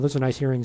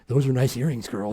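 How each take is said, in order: First: It sounds like a sincere, genuine compliment. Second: It sounds like a creepy, weird come-on.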